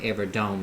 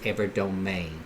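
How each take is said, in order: First: The name ends with a plain 'dome' sound. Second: The final E is sounded like 'ay'. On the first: The speaker calls it wrong. "I've been pronouncing it Everdome" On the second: The speaker calls it right. "it's Everdomain"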